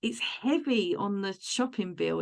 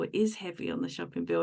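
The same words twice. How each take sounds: First: Said in the usual way. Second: "is" said in full and stressed; emphatic "is", as a firm confirmation. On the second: Real, not acted. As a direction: lean on "is" to concede the point. Repeats, uncontracting "is" for emphasis.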